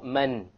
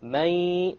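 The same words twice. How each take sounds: First: The n is pronounced as a clear consonant. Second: The n is dropped, leaving only nasal resonance. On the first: The speaker calls it wrong. "Notice there is no man" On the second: The speaker calls it right. "you drop the noon sound. But you have a gunna, and that's the nasal sound"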